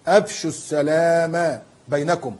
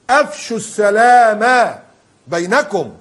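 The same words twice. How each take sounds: First: Slow recitation. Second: Slow, louder and higher repeat of أفشوا; rising to a preacher's call; emphatic repeat. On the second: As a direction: hammer the command أفشوا home. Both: Shown as a demonstration. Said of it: "قال صلى الله عليه وسلم".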